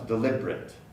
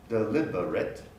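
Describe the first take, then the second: First: The word is said with three syllables. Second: The word is said with four syllables.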